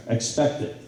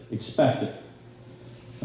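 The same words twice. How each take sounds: First: Said in the usual way. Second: "Expect it." whispered very slowly and softly; whispered emphasis. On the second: Shown as a demonstration. Speaker driving home the coach's lesson, slow whispered emphasis.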